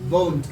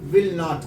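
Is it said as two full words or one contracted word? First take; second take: contracted; two words. First: The words are contracted into one short syllable. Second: Both words are said in full, separately.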